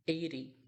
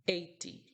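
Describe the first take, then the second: First: Eighty, American style; flapped T. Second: Eighty with a crisp T; eighty, British style; clear T. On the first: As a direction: say eighty as "eidy". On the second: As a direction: say eighty with the T sounded. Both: Shown as a demonstration. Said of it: "Oitenta é um dos que mais confunde".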